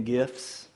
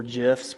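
First: GIFS said with a hard G, as in gift. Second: GIFS said with a soft G, like "jifs". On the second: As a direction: say "gifs" with a J sound. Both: Shown as a demonstration. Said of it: "however you say that word".

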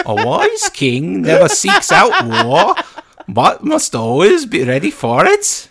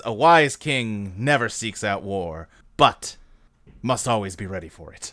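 First: High, loud, slow mock Norwegian accent; Anthony Hopkins as Odin. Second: Lightly lowered, slow kingly voice; a hint of a solemn old king; low slow Odin. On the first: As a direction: ham up a Norse king's accent. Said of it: "really good Anthony Hopkins as Odin impression". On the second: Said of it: "that's not what he says".

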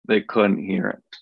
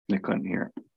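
First: Said in the usual way. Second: Soft, hushed repeat of the line; a quiet echo after the first take. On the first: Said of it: "they, they couldn't". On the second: Shown as a demonstration. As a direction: let it fall away almost to a murmur.

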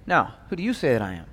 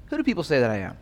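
First: "you" leaned on, set against people; stress on you. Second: Said in the usual way. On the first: Shown as a demonstration. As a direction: land the weight on "you", softer and lower. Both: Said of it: "And there's a different level".

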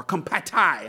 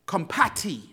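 First: "compati" ending in a TIE sound; alternative pronunciation. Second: "compati" ending in a TEE sound; first pronunciation. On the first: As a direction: say "compati" as com-pah-TIE. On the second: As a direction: say "compati" as com-PAH-tee. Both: Shown as a demonstration. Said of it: "however you pronounce it".

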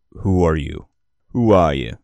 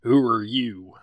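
First: Put-on "Who are you?" in a light Midwestern accent; a hint of the Midwest in Nova's challenge; vaguely Midwestern accent. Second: Lightly voiced cowboy asking; Texas cowboy accent. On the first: Nova confronting the strangers, lightly Midwestern. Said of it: "he says that in a vaguely, uh, Midwestern accent". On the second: Player nailing Nova's Texan voice, cowboy accent. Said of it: "Yeah, that's it. That's perfect".

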